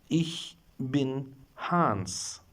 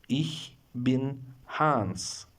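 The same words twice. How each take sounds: Both takes have the same delivery.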